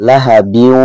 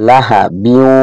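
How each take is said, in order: No difference in how they are said.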